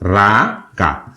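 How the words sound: The word begins with an r sound. This is how Bangladeshis pronounce it. "Bangla অ্যাকসেন্টটাকে যদি মাথায় রেখে"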